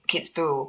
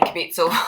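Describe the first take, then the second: First: The name begins with the sound 'kitz'. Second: The name begins with the sound 'kib'. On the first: The speaker calls it right. "but I did in another say Kitzbühel" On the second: The speaker calls it wrong. "I was pronouncing it incorrectly"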